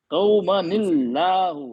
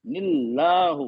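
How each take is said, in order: First: कौमनिल्लाहु slow with heavy Allah; wrong reading. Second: निल्लाहु slow with thin Allah; right reading. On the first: Teacher shows the reading to avoid. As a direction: model कौमनिल्लाहु the wrong way, slowly. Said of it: "कौमनिल्लाहु नहीं पढ़ेंगे". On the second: Teacher gives the correct thin reading. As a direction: say निल्लाहु slowly and lightly. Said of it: "नहीं पढ़ेंगे". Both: Shown as a demonstration.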